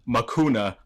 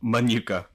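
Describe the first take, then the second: First: The middle consonants are swapped: ma-KU-na. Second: The consonants are in order: ma-NU-ka. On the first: The speaker calls it wrong. "I called it Makuna, like Akuna Matata" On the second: The speaker calls it right. "instead of Manuka"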